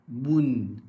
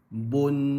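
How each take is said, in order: First: The vowel is a clear u sound. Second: The vowel leans toward an o sound. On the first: The speaker calls it right. "Dia un, bun, tun" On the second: The speaker calls it wrong. "tak mau"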